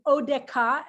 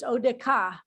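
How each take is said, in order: First: "odeka" with a clear hard k, stressed on the middle syllable; teacher demonstrating "odeka" with dagesh. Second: Teacher repeating "odeka" to show the dagesh; odeka with a hard k. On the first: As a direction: say "odeka" with k, not the ch sound. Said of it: "you heard that I said it". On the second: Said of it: "but there is a dagesh". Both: Shown as a demonstration.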